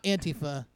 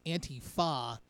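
First: "Antifa" with an unstressed, schwa-like last "a"; rejected pronunciation. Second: "Antifa" drawn out slowly, ending in a full "fah"; corrected pronunciation. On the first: Correcting co-hosts on a word, rejected pronunciation of "Antifa" ending in "uh". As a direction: say "Antifa" run together, ending in a weak "uh". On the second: Correcting co-hosts on a word, slow "Antifa" ending in a full "fah". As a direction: say "Antifa" as "anti-FAH", with a long open last vowel. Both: Shown as a demonstration. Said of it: "it's not Antifa".

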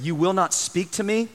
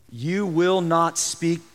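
First: "You will not speak to me" with questioning lift on "me"; read as question. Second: "You will not speak" as a slow statement; read as statement. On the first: Preacher correcting Pilate's line to Jesus, as a question. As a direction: make it a question, lifting "me". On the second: Preacher reading Pilate's words to Jesus, as a slow statement. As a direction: let "speak" land as a statement, not asking. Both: Shown as a demonstration.

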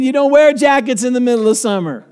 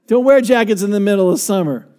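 First: Said in the usual way. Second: Laughing. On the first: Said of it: "repeated with laughter". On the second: Real, not acted.

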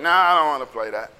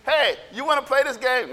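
First: Low, grumbled brush-off; dismissive kid refusal. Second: Casual, slightly lifted question; a hint of an eager kid; lightly acted kid invitation. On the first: Acted. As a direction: wave the game away. Imitating kid turning down game. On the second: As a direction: ask a playmate to join in. Imitating kids' overheard invitation.

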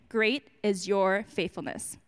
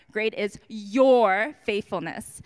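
First: Said in the usual way. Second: Slow, weighty "Great is your faithfulness"; drawn-out emphasis on "your faithfulness"; emphasized slowly. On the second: Shown as a demonstration. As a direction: lean into every word of "Great is your faithfulness", slow and firm. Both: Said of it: "I wanna also emphasize that last part".

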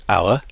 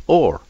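First: Said in the usual way. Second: Put-on "or" as the old way of saying hour, one syllable like "oar"; original pronunciation of hour. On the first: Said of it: "today we would say". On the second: Shown as a demonstration. Linguist showing Shakespeare's pronunciation of hour, said as "or". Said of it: "that was pronounced or".

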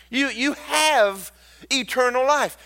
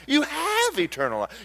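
First: Shouted preacher proclamation; higher shouted declaration; emphatic declaration. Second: Quieter with a laugh in it; softer laughing echo; softer, laughing repeat. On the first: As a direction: proclaim it to the whole church. Declares eternal life. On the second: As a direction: say it again softer, delighted. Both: Acted.

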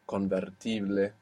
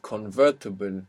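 First: "convertible" said the Spanish way, con-ber-TEE-bleh; Spanish pronunciation. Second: Said in the usual way. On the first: Shown as a demonstration. Teacher converting an English word for learners, Spanish pronunciation of "convertible". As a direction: say "convertible" as Spanish, tapped r and final eh.

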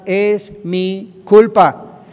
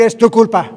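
First: "Es mi culpa" loud and stretched out slowly; loud slow declaration of guilt; emphatic confession. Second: "Es tu culpa" loud and higher, pointing the finger; loud accusing blame; blaming voice. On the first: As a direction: proclaim "Es mi culpa" with full force. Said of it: "Hay que aprender a confesar". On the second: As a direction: throw "Es tu culpa" back at someone. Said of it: "y dejar de decir". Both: Shown as a demonstration.

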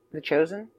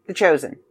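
First: The Chosen asked quietly with a rising tune; murmuring to herself, unsure of the title; unsure question. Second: Said in the usual way. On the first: Real, not acted. Checking the title aloud.

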